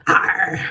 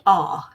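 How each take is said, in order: First: R with a strong pirate-like r sound, loud; hard rhotic R. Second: R said as an open "ah" with no r sound; non-rhotic R. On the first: Demonstrating the West Country habit, loud hard rhotic R. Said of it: "the hard R". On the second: Explaining the English accent to a friend, R with no r sound. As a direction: say R the received pronunciation way, just "ah". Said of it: "received pronunciation English accent wouldn't pronounce". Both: Shown as a demonstration.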